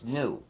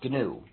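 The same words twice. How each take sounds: First: The word starts with no G sound. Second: The word starts with a hard G sound. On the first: This is the dictionary pronunciation of the animal's name. "the dictionary says it's pronounced GNU" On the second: This is the name of the operating system. "the correct pronunciation is GNU. So please pronounce a hard G"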